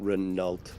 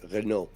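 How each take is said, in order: First: The final T sound is pronounced. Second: The final T sound is silent. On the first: The speaker calls it wrong. "not Renault" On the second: The speaker calls it right. "the name is Renault"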